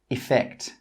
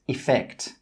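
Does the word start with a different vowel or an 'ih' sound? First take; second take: ih; ih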